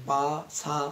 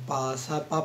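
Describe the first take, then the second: First: Said in the usual way. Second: The third পা cut short and not fully sounded; পা said shortened in rhythm; clipped syllable. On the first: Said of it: "সম্পূর্ণ উচ্চারণ হচ্ছে". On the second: Shown as a demonstration. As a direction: clip the last পা in the beat. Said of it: "উচ্চারণ হবে এরকম".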